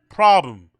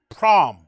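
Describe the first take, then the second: First: The word is said in full with both syllables. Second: The word is cut short after its first syllable.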